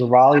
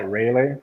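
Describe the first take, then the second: First: Raleigh said as RAH-lee; first syllable of Raleigh like "rah"; correct local pronunciation. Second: Raleigh said as RAY-lee; first syllable of Raleigh rhymes with "ray"; mispronounced place name. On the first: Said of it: "so that I learned it was Raleigh". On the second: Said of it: "I never knew how that word or that name was pronounced". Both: Shown as a demonstration.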